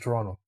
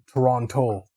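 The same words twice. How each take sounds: First: The second T is dropped. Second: The second T is clearly pronounced. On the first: The speaker grew up in the city. "if you grew up here, everyone just says Toronto" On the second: The speaker is new to the city. "newer people that like uh, migrated to the city, they say the word Toronto"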